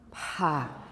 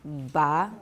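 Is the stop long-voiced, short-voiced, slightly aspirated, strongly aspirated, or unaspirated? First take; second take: strongly aspirated; short-voiced. First: The stop is voiceless with strong aspiration. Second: The stop has shorter voicing before it. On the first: "strongly aspirated" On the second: "a little bit shorter"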